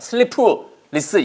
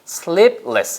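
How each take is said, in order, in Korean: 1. p 소리는 모음이 붙어서 터져 나와요. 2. p 소리는 거의 들리지 않아요. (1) "의 집어넣지 마세요. sleepless 이거 아니에요" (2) "프 발음이 거의 안 들리더라"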